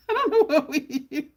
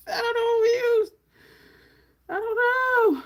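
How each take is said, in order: First: Laughing through the line, higher and louder. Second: Much higher, faster, hammed-up crying whine; fake-sob it for laughs; mock wail. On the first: Real, not acted. Laughing to viewers after losing track of the shade. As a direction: giggle at your own confusion. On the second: Pretend crying to viewers over the forgotten shade.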